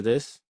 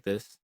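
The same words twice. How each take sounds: First: Said in the usual way. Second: Subtly widened chorus voice; chorus effect voice. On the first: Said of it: "compared to this". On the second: Shown as a demonstration. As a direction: voice spread a bit wider with chorus. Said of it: "sounding a bit wider, like this".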